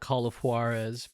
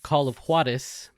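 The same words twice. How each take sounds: First: Juarez is said with an English pronunciation. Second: Juarez is said with a Spanish pronunciation. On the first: The speaker calls it wrong. "I don't know why I just said it like that" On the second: The speaker calls it right. "I should be able to just say it the right way"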